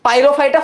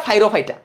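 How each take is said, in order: First: Said in the usual way. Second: ফাইরোফাইটা as "fai-ro-fai-ta", falling at the end; altered pronunciation. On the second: Shown as a demonstration. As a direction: say ফাইরোফাইটা with F in place of the opening P. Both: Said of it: "মানে এইভাবে উচ্চারণ করি".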